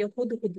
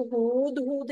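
First: हुदहुद with two short u sounds; brief u in each half of हुदहुद. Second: Wrong take हुदहुद, long oo in each half. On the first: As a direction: say हुदहुद quickly, both vowels brief. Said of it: "हुदहुद लिखेंगे". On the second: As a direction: draw out both vowels in हुदहुद. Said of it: "हुदहुद नहीं लिखेंगे". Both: Shown as a demonstration.

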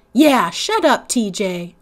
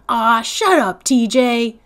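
First: Echoing. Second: Loud, sharp angry retort; snapping. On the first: The narrator as a girl joining in against T J, sharp. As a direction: back up your brother. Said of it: "I echoed". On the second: Stacy telling T J off, angry snap. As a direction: cut him off hard. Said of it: "Stacy snapped". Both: Acted.

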